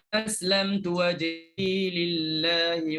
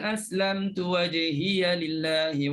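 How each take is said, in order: First: The pronoun ends in a bare short 'i'. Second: The pronoun ends in an added 'ya' syllable. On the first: "matikan ya untuk syu'bah" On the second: "Kemudian Hafs"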